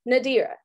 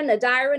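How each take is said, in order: First: "Nadira" said nuh-DEER-uh, middle like dear; correct pronunciation. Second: "Nadira" said nuh-DYE-ruh, long I in the middle; wrong pronunciation. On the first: Presenter modelling her name right for the workshop, nuh-DEER-uh. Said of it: "you got it, my friend". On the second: Presenter showing the audience how her name gets butchered, "Nadira" as nuh-DYE-ruh. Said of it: "I get called Nadidra". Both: Shown as a demonstration.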